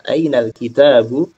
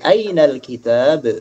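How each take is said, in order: First: The last word ends with a short vowel. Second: The last word ends on a bare consonant. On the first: The final case vowel is pronounced. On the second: The phrase ends in pause form.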